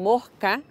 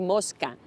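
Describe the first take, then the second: First: The s before the c is aspirated, breathy. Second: The s before the c is fully pronounced. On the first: "se aspiran las S finales de sílaba. Se dicen mosca" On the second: "en vez de mosca"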